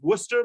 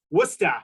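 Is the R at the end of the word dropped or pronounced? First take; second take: pronounced; dropped. First: The final R sound is pronounced. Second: The final R sound is dropped. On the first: "It is Worcester" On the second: "in Massachusetts, we also drop the R at the end"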